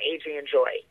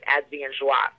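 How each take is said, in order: First: The name is said with English pronunciation. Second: The name is said with French pronunciation.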